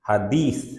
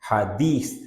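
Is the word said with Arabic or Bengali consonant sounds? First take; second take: Arabic; Arabic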